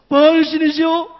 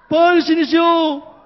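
The two takes are said the same way.

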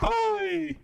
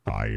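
First: The voice is pitched high. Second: The voice is pitched very low. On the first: "Or it can go up here" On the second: "It can go to here. ... This is how low it can go"

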